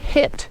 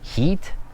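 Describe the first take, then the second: First: The vowel is short, as in 'sit'. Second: The vowel is long, as in 'seat'. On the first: The speaker calls it right. "So it's pronounced" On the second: The speaker calls it wrong. "It's definitely not pronounced heat"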